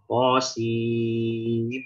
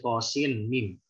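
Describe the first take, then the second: First: The n merges into a nasalized doubled m. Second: The n of sin is pronounced clearly before mim. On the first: The speaker calls it right. "nun sakinah ketemu mim, maka ini jadi hukum idgham bigunnah" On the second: The speaker calls it wrong. "Kadang orang bacanya masih tosin mim"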